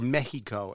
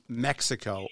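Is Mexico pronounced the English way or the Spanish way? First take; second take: Spanish; English. First: Mexico is pronounced in Spanish style. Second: Mexico is pronounced in plain English style.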